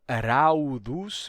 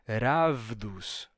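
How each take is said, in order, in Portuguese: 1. A vogal desliza para um som de 'u'. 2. A vogal é seguida por um som de 'v'. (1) "Não raudos" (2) "mas ele vai dizer ravdos"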